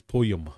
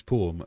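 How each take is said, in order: First: "poem" with a Y glide in the middle; poem pronounced like "poy-em"; Scottish "poem". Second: Said in the usual way. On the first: Shown as a demonstration. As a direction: say "poem" as "po-yem". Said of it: "as if it's got a Y in it". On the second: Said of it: "everybody in Scotland pronounces poem as poem".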